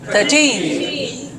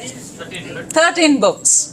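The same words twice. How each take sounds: First: Put-on "Thirteen" as thir-TEEN, falling at the end; stress on TEEN. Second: Put-on "Thirteen books" slowly, as THIR-teen books; slow front-stressed model of "Thirteen books". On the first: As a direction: answer "Thirteen" with the weight on TEEN. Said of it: "stop at thirteen". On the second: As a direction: hit the first syllable of "Thirteen" before "books". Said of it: "make it like thirteen students". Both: Shown as a demonstration.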